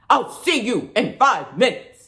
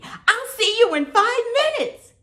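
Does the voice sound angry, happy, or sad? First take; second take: angry; happy. First: The line is spoken in an angry voice. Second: The line is spoken in a happy voice. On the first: "Now how about angry?" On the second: "Now let's say it happy"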